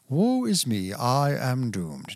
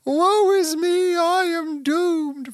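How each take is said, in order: First: It is said in a stiff, formal Victorian way. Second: It is said in a panicked, freaked-out way.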